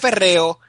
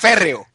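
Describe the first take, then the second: First: The stress falls on a later syllable. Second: The stress falls on the first syllable. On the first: The speaker calls it wrong. "No se dice férreo" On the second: The speaker calls it right. "se dice férreo... es una palabra esdrújula"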